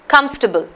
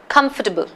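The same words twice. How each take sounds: First: The second syllable is dropped, giving three syllables. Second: The second syllable is dropped, giving three syllables.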